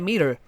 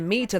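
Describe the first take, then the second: First: The middle consonant is a soft D sound. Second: The middle consonant is a crisp T sound. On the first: "they say meter ... the T becomes a D" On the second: "Americans don't say meter"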